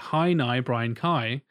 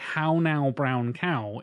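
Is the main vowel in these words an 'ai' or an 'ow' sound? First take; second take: ai; ow. First: The vowels are said with an 'ai' sound. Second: The vowels are said with an 'ow' sound.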